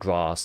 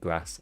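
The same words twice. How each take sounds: First: The word is said with a southern vowel. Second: The word is said with a northern vowel. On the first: This is what listeners would expect from him. "A lot of people would probably expect me to say like grass" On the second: This is how he actually says it. "I say grass and castle, which is a northern thing"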